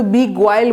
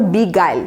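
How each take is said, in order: First: বি গোয়াইল with the u sounded as a w; spelling-based বি গোয়াইল, glide after the g; mistaken pronunciation. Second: বি গাইল with a silent u, like "beguile"; বি গাইল, hard g straight into "ai"; correct pronunciation. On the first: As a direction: say বি গোয়াইল as "bee-gwa-il". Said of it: "আসলে কিন্তু ভুল এটা". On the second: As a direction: say বি গাইল as "bee-gile", no w. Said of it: "এটা হবে বি গাইল". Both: Shown as a demonstration.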